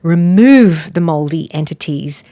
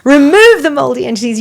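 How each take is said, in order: First: A firm push on "remove", then evenly down; retold prayer command. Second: Loud, high command casting something out; forceful retold prayer. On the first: Praying over a sick woman in a bathroom, firm command. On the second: Woman in ministry casting out mold, loud forceful command. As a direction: imitate a deliverance prayer at raised pitch and volume.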